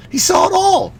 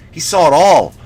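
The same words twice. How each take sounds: First: Sudden high squeak. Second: Said in the usual way. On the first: Shown as a demonstration. Comic repeating the vampire's age point, high squeak. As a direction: repeat it much higher, squeaky and amazed. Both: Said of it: "repeated line".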